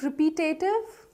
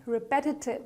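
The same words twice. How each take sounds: First: "repetitive" as ri-pee-TAY-tiv; mispronounced repetitive. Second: "repetitive" as ri-PET-i-tiv; soft "repetitive" with stressed short PET; correct repetitive. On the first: Teacher testing learners with wrong repetitive, questioning. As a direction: ask "repetitive" with a long tay. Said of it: "Not really". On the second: Teacher giving learners the right repetitive, softly. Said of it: "Repetitive is the right pronunciation". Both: Shown as a demonstration.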